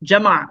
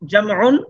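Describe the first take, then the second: First: The word ends on a bare final consonant. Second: The word ends with a full -un ending. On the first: "থামলে শেষ বর্ণে সাকিন করে" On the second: "আমরা জামউন এভাবে বলতে পারি"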